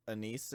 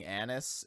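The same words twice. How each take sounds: First: "anise" said as uh-NEECE; second-syllable stress. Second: "anise" said as AN-iss; first-syllable stress. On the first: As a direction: stress the end of "anise", with a long ee. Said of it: "instead of anise". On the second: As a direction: stress the start of "anise", short i at the end. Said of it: "you're saying anise instead of". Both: Shown as a demonstration.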